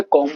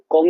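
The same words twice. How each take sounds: First: कॉम्ब ending on m, no b; silent b. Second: कॉम्ब with the b sounded; wrong sounded b. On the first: Teacher giving students the right way. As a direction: say कॉम्ब as kom. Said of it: "कॉम्ब बोलते हैं". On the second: Teacher showing students the wrong way. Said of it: "कॉम्ब नहीं बोलते". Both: Shown as a demonstration.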